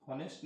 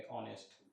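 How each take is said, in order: First: हॉनेस्ट with a spoken h; wrong pronunciation. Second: ऑनेस्ट lower and softer, no h; ऑनेस्ट begins on the open vowel; correct pronunciation. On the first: Teacher showing the students' mistake, हॉनेस्ट with h. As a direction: start हॉनेस्ट on a breathy h. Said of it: "हॉनेस्ट नहीं पढ़ेंगे". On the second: Teacher giving the right form, ऑनेस्ट without h. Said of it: "हॉनेस्ट नहीं पढ़ेंगे, ऑनेस्ट". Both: Shown as a demonstration.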